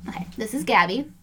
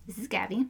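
First: Said in the usual way. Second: Soft whispered take; whispered demo. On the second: Shown as a demonstration. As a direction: whisper it again for the camera. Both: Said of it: "do it again".

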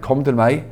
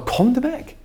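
First: Said in the usual way. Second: Crying out. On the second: Retold or imitated. Preacher voicing Jesus calling out to the weary, high-pitched call. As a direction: call "Kom til meg" out high like an invitation across a crowd. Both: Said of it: "Jesus sto og ropte ut".

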